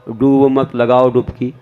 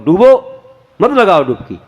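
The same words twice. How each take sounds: First: The pause comes after 'मत'. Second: The pause comes after 'डूबो'.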